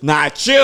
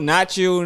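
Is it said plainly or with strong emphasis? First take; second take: strong emphasis; plainly. First: It is said with strong, forceful emphasis. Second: It is said plainly, without extra force.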